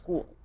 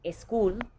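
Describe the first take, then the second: First: The word starts directly with the S. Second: An eh vowel comes before the S. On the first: The speaker calls it right. "just school" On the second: The speaker calls it wrong. "It's not school"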